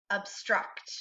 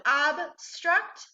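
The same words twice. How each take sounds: First: Said in the usual way. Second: "obstruct" slowly split into two separate syllables. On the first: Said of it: "and together". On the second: Shown as a demonstration. Teacher models "obstruct" for students, slowly syllable by syllable. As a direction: say "obstruct" in two parts, ob, then struct. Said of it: "so our first syllable".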